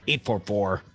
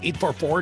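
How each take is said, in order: First: The digits are read at a slower pace. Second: The digits are read at a normal pace.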